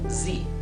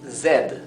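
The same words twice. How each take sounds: First: The letter is named the American way. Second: The letter is named the British way. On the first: "en Estados Unidos sería Z" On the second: "En Inglaterra sería Z"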